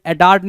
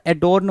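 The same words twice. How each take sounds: First: एडॉर्न said with an open 'aar' vowel, a-daarn; wrong pronunciation. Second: एडोर्न said with a rounded 'o', a-dorn; correct pronunciation. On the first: Teacher voicing students' wrong एडॉर्न with an open 'aar'. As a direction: stretch the 'aar' in एडॉर्न to mirror the misspelling. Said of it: "एडोर्न होता है". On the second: Teacher correcting students, saying एडोर्न with a rounded 'o'. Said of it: "एडॉर्न नहीं होता". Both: Shown as a demonstration.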